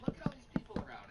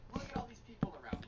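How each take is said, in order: First: Repeated faster and louder in mock outrage. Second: Imitated mother snapping, a bit louder; mock angry mom. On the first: Mother scolding son in store, louder mock repeat. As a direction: hammer it home, faster and louder. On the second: Mother scolding son in store, mock outrage. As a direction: point at the crowd in mock outrage. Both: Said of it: "she looks at her son and goes".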